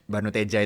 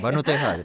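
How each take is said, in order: First: The consonant before the last vowel is a J sound. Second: The consonant before the last vowel is an H sound. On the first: The speaker calls it right. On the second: The speaker calls it wrong.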